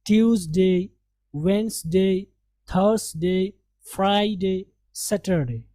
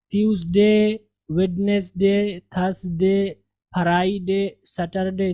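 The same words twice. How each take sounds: First: वेडनेसडे as "WENZ-day", फ्राइडे as "FRY-day"; measured list, d silent in वेडनेसडे; correct pronunciation. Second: Spelling-style वेडनेसडे, plain "de" endings; "wed-nes-de", "fa-rai-de" for वेडनेसडे, फ्राइडे; mistaken local pronunciations. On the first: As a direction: keep fr joined in फ्राइडे, drop d in वेडनेसडे. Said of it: "ये सही नुत्क है". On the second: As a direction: sound the d in वेडनेसडे and split फ्राइडे as "faraiday". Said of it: "नहीं पढ़ेंगे". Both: Shown as a demonstration.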